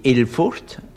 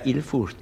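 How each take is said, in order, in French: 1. Le nom commence par un son vocalique 'e'. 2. Le nom commence par un son vocalique 'i'. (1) "On dit Ilfurt" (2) "on ne dit pas Ilfurt"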